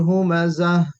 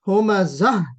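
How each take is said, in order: First: The final h is soft with audible breath. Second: The final h is pushed out forcefully. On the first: The speaker calls it right. "इस तरीक़े से जब हम पढ़ते हैं" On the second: The speaker calls it wrong. "ऐसे ज़ोर से नहीं पढ़ना है"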